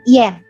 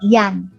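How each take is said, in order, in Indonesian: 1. Vokalnya terdengar seperti 'e'. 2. Vokalnya terdengar seperti 'a' terbuka. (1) "A-nya tidak dibaca uh, dengan bunyi A tapi Ien" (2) "Eh maaf tadi bukan Ian ya"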